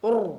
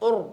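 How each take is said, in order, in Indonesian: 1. Vokal itu diucapkan dengan bibir dimonyongkan. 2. Vokal itu diucapkan dengan bibir dimonyongkan.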